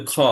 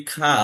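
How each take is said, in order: First: খ with a rounded "o" vowel, slightly rasped in the throat; full rough খ. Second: খা with an open "aa" vowel, as commonly mispronounced; light খা. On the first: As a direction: scrape খ lightly, rounding the vowel. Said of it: "উচ্চারণ হবে খ". (গলা থেকে কর্কশ, গোল খ) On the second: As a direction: say খা thin, with an aa vowel. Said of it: "এটা খা উচ্চারণ হবে না". (হালকা আ-কার দিয়ে খা) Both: Shown as a demonstration.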